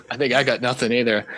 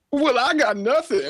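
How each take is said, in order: First: Said in the usual way. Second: Very high, slow put-on voice; Tutu. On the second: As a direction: answer in a silly cartoon falsetto. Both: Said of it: "Well, Tutu, do you have anything".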